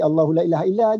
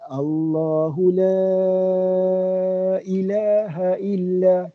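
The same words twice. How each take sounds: First: The vowel of la is held briefly. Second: The vowel of la is drawn out long. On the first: The speaker calls it wrong. "jangan baca Allahu la ilaha illa aje" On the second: The speaker calls it right. "ambil enam harakat"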